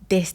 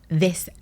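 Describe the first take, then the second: First: The first sound is a stop, like a 'd'. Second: The first sound is a fricative with tongue at teeth. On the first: "That's in Ireland how they would, some people, how they would pronounce their T H's" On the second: "it's bringing your tongue to your teeth ridge"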